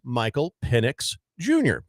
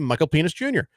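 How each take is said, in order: First: The name is said slowly. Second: The name is said quickly. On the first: "if I could say it slow" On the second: "sometimes when I say it fast, it sounds like something else"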